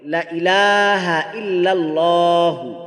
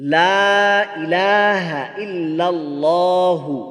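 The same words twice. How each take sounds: First: The opening vowel in 'la' is cut short. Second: The opening vowel in 'la' is drawn out long. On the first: Surely there are other gods besides God. The speaker calls it wrong. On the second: There is no god but God. The speaker calls it right.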